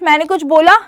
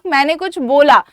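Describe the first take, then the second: First: It is said as a question, rising. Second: It is said as a statement, falling.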